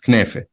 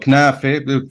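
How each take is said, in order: First: The first vowel sounds like e. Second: The first vowel sounds like a.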